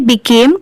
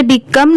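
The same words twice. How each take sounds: First: Became with a long A, "bi-KAYM"; correct reading of became. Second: Became misread with a short "come" ending, "bi-KUM"; wrong reading of became. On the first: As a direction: say "became" to rhyme with "name". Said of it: "क्योंकि यहाँ पर ए है". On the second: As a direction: say "became" as "become", the mistaken way. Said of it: "इसे become नहीं पढ़ेंगे". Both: Shown as a demonstration.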